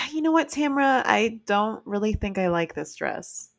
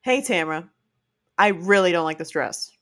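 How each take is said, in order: First: Harsh attitude. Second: Kind, even take on Hey, Tamra; nice version of the same words; gentle attitude. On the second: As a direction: say it kindly. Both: Shown as a demonstration. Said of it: "It's the same words. It's different attitude".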